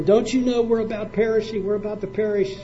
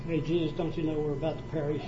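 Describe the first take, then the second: First: Higher, urgent and frightened; scared, excited plea. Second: A mild, offhand question with no panic; calm, casual ask. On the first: Preacher voices disciples begging Jesus in the storm, urgent and scared. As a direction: cry it out like men shaking him awake in a storm. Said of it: "They're excited. They're scared". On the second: Preacher mocks a calm plea from the disciples, said casually. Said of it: "I don't think they walked up there and said". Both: Shown as a demonstration.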